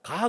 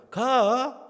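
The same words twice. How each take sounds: First: Said in the usual way. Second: "가" drawn out high and loud with Chungcheong tune; Chungcheong intonation. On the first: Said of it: "그러면 안 돼요". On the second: Shown as a demonstration. Pastor corrects the intonation, high, loud Chungcheong "가". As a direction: swing "가" high in Chungcheong style. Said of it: "인토네이션이".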